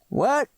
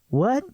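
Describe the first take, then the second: First: It is said in a high-pitched voice. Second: It is said in a normal voice.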